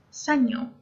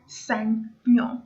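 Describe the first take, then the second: First: Said in the usual way. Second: Señor split slowly into two syllables; syllable-by-syllable pronunciation. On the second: Shown as a demonstration. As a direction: say Señor in two separate parts. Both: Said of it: "let's say it again".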